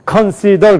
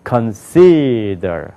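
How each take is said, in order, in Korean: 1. 한국식으로 강세 없이 평평하게 발음해요. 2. 영어식 강세를 넣어서 발음해요.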